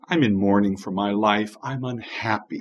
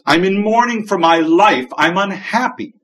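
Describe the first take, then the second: First: It is said in a calm tone. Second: It is said in an angry tone.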